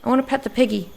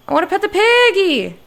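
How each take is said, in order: First: Said in the usual way. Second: Much higher and louder, pleading to pet the piggy; loud whiny plea to pet the piggy; eager shout. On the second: Shown as a demonstration. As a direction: burst out with childlike longing.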